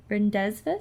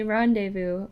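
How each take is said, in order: First: Rendezvous misread as it is spelled, "REN-dez-vus". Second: Rendezvous said the French way, "RON-day-voo"; corrected rendezvous. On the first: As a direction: sound out rendezvous with an English "dez" and a short ending. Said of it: "Did I read that wrong?". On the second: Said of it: "It's rendezvous". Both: Real, not acted.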